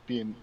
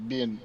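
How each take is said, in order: Both takes have the same delivery.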